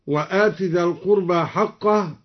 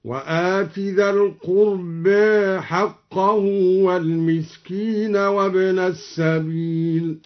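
First: Said in the usual way. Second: Slow chant, القربى said "qurbe"; drawn-out tartil with softened final a in القربى; taqlil on القربى. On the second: Shown as a demonstration. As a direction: recite slowly, tilting the end of القربى toward e. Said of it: "قلل الدوري القربى هكذا".

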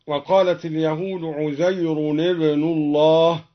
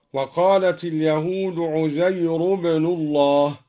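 First: Said in the usual way. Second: عزير said uzayru without the n; no nunation. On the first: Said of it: "قرأ الدوري بحذف التنوين هكذا". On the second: Shown as a demonstration. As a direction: drop the tanwin on عزير. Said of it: "بحذف التنوين هكذا". (عزيرُ بحذف التنوين)

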